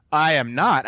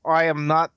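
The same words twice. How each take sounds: First: Said in the usual way. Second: Retold slip into a Russian accent. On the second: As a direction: still stuck in the Russian accent. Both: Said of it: "get out of the voice".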